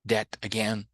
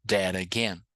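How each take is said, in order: First: "That again" with a clear t; careful "That again", t not flapped; T pronounced. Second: "that again" as "dera-gain"; flapped T. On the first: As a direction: sound the T at the end of "That". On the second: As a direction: turn the T in "that" into a tapped r. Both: Shown as a demonstration. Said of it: "acostuma com os dois sons".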